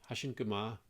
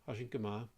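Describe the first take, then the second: Both takes have the same delivery.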